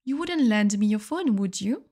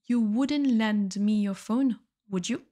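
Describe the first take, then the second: First: Said in the usual way. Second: Slowly, each word laid out clearly; careful slow classroom model; slow repeat for learners. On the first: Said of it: "teacher repeats example". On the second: Shown as a demonstration. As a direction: say it again slowly so students can follow. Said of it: "teacher repeats example slowly".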